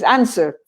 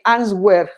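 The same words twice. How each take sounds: First: No W sound is pronounced in the middle. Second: A W sound is pronounced in the middle. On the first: The speaker calls it right. "It's answer. Forget about the W" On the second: The speaker calls it wrong. "I immediately notice when somebody is a very true beginner"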